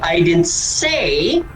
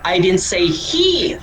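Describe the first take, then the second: First: The word 'say' is stressed. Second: The word 'he' is stressed. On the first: It was implied rather than said. "hindi ako nagsalita. But maybe I implied" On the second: Someone else stole it. "Hindi ko sinasabi na siya"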